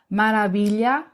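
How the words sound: It is said with Spanish pronunciation. "em espanhol"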